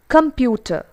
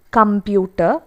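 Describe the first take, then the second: First: "computer" as kuhm-PYOO-tuh, falling; correct pronunciation. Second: "computer" as kum-byoo-tah, b for p; wrong pronunciation. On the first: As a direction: sound a clear p in "computer". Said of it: "it's computer". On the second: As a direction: say "computer" with a b sound, rising. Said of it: "It's not". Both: Shown as a demonstration.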